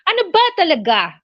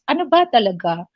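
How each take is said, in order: First: It sounds angry and upset. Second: It sounds like a calm, neutral question.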